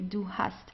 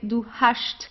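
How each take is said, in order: First: It is said in standard German pronunciation. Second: It is said in a southern German dialect. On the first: "so you pronounce it the normal way" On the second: "in southern Germany we have um, we have some dialects where you would pronounce it as hast"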